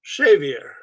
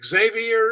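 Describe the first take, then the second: First: The name begins with an 'sh' sound. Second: The name begins without an 'sh' sound. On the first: This is the original Basque way. "the X becomes an S H" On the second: This is the usual American way. "we say Xavier in the U S"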